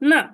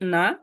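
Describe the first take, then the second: First: The pitch falls sharply through the syllable. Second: The pitch rises through the syllable. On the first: "চার number tone falling tone" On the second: "এই টোনটা উপরে যাইতেছে এটাকে রাইজিং বলে"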